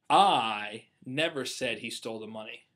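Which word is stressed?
never. The stress is on "never".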